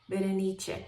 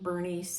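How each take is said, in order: First: The name is said with an Italian pronunciation. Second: The name is said with an English pronunciation. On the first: "the Italian pronunciation" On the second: "I don't like the English pronunciation"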